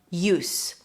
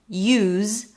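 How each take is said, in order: First: The word ends with an S sound. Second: The word ends with a Z sound. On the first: It is the noun meaning purpose or usefulness. "once pronounced with an S" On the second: It is the verb meaning to employ something. "then it's spelled with the Z sound"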